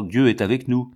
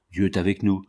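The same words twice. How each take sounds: First: "Dieu" pushed out louder at the start; the other side's rival claim, hitting "Dieu"; mock counter-claim, "Dieu" stressed and louder. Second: One side's claim, landing on "nous"; mocking one army, "avec nous" stressed. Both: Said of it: "Non, pas du tout, vous faites erreur".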